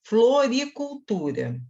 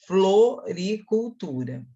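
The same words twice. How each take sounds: First: "Floricultura" slow with F and L clear; slow demonstration. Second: "Floricultura" even slower, syllable by syllable; slower second take. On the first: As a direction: spell out "Floricultura" slowly. ("Floricultura" pronunciada devagar) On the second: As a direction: drag out "Floricultura". ("Floricultura" mais arrastado) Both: Shown as a demonstration. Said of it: "pronunciei o F e o L".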